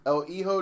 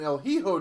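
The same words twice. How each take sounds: First: Hijo said "ee-ho", first H silent; corrected Hijo. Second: Hijo with the H sounded, "hee-ho"; mispronounced Hijo. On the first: Host repeating the name after coaching, Hijo as "ee-ho". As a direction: say Hijo with only the J sounded, as H. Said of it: "The H is silent and the J makes an H sound". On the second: Host reading out the match card, mispronouncing Hijo as "hee-ho". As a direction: say Hijo with an audible H at the start. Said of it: "The H is silent". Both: Real, not acted.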